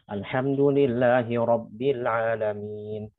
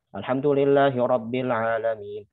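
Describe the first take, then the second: First: It is recited at a moderate, middle pace. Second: It is recited quickly with shortened vowel lengthening. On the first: The reading is for ordinary recitation or leading prayer. "Itu namanya tadwir" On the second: The reading is for review or long prayers. "itu ciri-ciri hadir. Jadi bahasa yang cepat"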